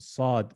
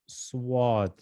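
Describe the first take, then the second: First: No glide follows the first consonant. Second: A w-like glide follows the first consonant. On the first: The speaker calls it right. "We want sad" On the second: The speaker calls it wrong. "Some people say swad. This this is wrong"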